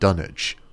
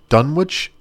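First: The W sound in the middle is silent. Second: The W sound in the middle is pronounced.

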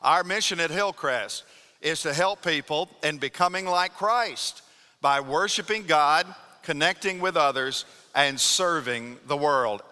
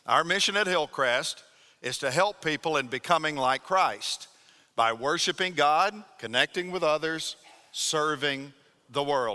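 First: It is said loudly with strong emphasis. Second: It is said in a plain, even voice.

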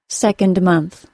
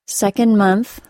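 First: The D sound at the end of 'second' is pronounced. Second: The D sound at the end of 'second' is dropped. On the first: "then by keeping it in place" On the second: "first with the omitted D sound"

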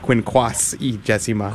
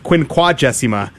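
First: The word is said with an extra s sound. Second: The word is said without an extra s sound. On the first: The speaker calls it wrong. "by putting an extra S in there" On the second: The speaker calls it right. "It's Quinquagesima"

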